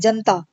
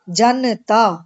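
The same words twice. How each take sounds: First: The short vowel after 'jan' is dropped entirely. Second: The short vowel after 'jan' is fully pronounced. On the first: The speaker calls it wrong. "लेकिन हम क्या बोलते हैं ... लोप है यहाँ पर" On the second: The speaker calls it right. "हमें रुकना चाहिए, क्योंकि जन, जन एक शब्द है पूरा, और तब उसमें ता जोड़ना चाहिए"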